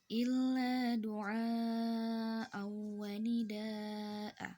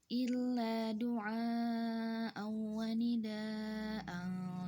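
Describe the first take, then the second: First: It stops on nida'a with a long final 'a'. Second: Nida'an ends in 'an' and runs straight on. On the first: The reading stops here. "Apabila berhenti di sini, maka itu mad iwad" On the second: The reading continues without stopping. "Tapi kalau misalkan disambung, itu tidak menjadi mad iwad"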